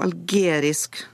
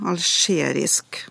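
First: The consonant after 'al' is a hard g. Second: The consonant after 'al' is a sh-sound. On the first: "Nå sa jeg det med G da" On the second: "vanlig uttale er som kjent med skjelyd"

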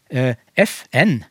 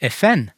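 First: Both letters are stressed like two separate words. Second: One tonal melody joins both letters into one word. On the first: "da sier du det som om det var 2 ord, med trykk på begge ordene" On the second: "Og legge en tonelagsmelodi over F-en og N-en, og da gjør jeg det virkelig til 1 ord"

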